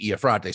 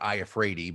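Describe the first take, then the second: First: The name is said with an Italian-style pronunciation. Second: The name is said with an English-style pronunciation. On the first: This is the original form of the name. "the Italian uh, um, pronunciation would be Iafrate" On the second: This is how the family itself says it. "they pronounce it Iafredi ... anglicized it"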